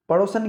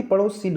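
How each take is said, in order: First: पड़ोसन with a mistaken "san" ending; wrong pronunciation. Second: पड़ोसिन with i in the last syllable, "sin"; correct pronunciation. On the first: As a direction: show "pa-ro-san" in पड़ोसन as the error. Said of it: "पड़ोसन कुछ नहीं होती". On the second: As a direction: teach the "sin" ending of पड़ोसिन. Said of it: "पड़ोसिन होती है". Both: Shown as a demonstration.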